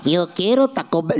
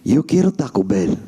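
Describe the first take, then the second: First: It is said in a cartoonish, stereotyped accent. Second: It is said in a lower, deeper voice. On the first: The speaker calls it wrong. "We're not doing Speedy Gonzalez" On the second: The speaker calls it right. "do it a little bit deeper"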